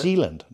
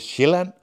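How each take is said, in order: First: The name is pronounced with English sounds. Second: The name is pronounced with Danish sounds. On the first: "But in English it would be Zeeland. ... like New Zealand, but without the new" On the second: "In Danish we say Zeeland"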